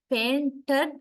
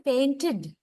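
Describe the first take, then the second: First: "painted" with a bare schwa-d second syllable, "pain-terd"; mispronounced "painted", no clear "id" at the end; wrong ending. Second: "Painted" ending in a clear "id", "pain-tid". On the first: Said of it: "That is not the proper pronunciation". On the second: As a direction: say "Painted" with a short i before the final d. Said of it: "So it's like id sound". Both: Shown as a demonstration.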